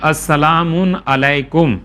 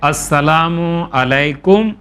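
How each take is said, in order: First: It ends 'assalamun' with an added n sound. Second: It ends 'assalamu' with no final n sound. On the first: The speaker calls it wrong. "ये अरबी ग्रामर के एतबार से सही नहीं है" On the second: The speaker calls it right. "दूसरा तरीका है"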